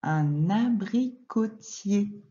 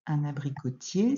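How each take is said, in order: First: "Un abricotier" drawn out, the n linked onto the a; slow liaison. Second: Said in the usual way. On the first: Shown as a demonstration. Teacher showing a pupil the liaison, "Un abricotier" linked and slow. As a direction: say "Un abricotier" slowly by syllables, linking "un-na". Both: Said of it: "On va faire la liaison ici".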